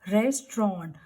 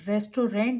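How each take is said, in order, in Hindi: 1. t और r एक ही आवाज़ में मिल जाते हैं। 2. t और r एक साथ मिले हुए नहीं हैं। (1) "सो टी आर की जो है कंबाइंड साउंड आएगी" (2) "रेस्टोरेंट वी विल नॉट से"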